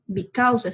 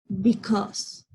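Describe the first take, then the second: First: Because read as written, bee-cow-sa; because sounded out letter by letter like Spanish; because spelled aloud the Spanish way; spelling pronunciation. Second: Because said bi-KOS, English style; because, short English bi-kos; because with the real English sound; English pronunciation. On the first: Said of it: "se escribe". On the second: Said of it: "pero se pronuncia". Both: Shown as a demonstration.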